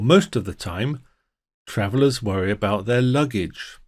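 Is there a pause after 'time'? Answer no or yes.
yes. There is a pause after 'time'. Travelers usually worry about their luggage.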